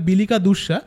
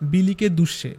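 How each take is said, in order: First: Both words end in an 'a' sound. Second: Both words end in an 'e' sound. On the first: This is the standard form of the word. "মানে কথাটা বিলিকা দুষ্যা" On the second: This is how the local villagers say it. "ওদের আঞ্চলিক ভাষা ওরকম ভাবে বলছে"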